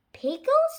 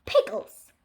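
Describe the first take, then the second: First: "Pickles" pitched high with a questioning rise; puzzled question. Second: Said in the usual way. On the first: Acted. Child questioning Mom's answer, "Pickles" high and rising. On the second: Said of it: "Then Mom said".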